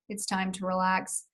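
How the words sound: It is said in a flat, monotone voice. "with the monotone"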